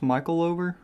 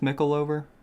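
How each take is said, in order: First: The first part sounds like 'Michael'. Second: The first part sounds like 'mickle'. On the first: The speaker calls it wrong. "I don't think it's Michaelover" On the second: The speaker calls it right. "I think it's Mickleover"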